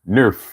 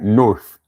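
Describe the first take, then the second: First: The word is clipped, sounding like 'nerf'. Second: The word is said fully, ending in 'th'. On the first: "They'll say Nerf" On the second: "pronouncing the whole word"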